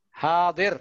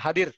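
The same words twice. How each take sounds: First: The first vowel is held long. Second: The first vowel is kept short. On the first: The speaker calls it right. "hanya panjang" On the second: The speaker calls it wrong. "bukan hadir"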